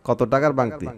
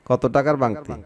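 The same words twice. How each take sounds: Both takes have the same delivery.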